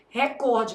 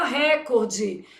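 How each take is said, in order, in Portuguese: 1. O acento está na segunda sílaba. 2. O acento está na primeira sílaba. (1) "o certo é o quê? Recorde, porque essa palavra é paroxítono" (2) "por que que o povo fala recorde?"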